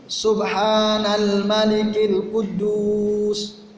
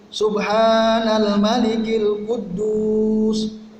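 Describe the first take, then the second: No difference in how they are said.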